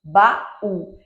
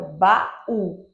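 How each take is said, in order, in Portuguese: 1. As duas vogais se separam em duas sílabas. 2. As duas vogais se separam em duas sílabas.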